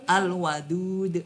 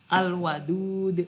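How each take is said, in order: Both takes have the same delivery.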